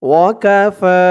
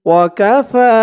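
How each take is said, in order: The two takes are said the same way.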